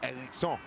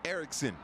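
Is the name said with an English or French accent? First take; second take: French; English. First: The name is said with a French accent. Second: The name is said with an English accent. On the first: The speaker calls it right. "you have to say it French" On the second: The speaker calls it wrong. "I can't say it too gringo"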